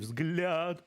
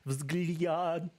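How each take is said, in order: First: The L is hard, a plain 'la' sound. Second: The L is soft, close to an 'lia' sound. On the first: "Even though it's supposed to be взгляд" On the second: "Almost all L's have almost like a softer tonation"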